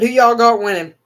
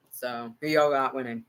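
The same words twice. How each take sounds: First: Louder, raised call to the viewers; calling out to chat. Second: Said in the usual way. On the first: Real, not acted. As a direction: toss the question out loud to chat.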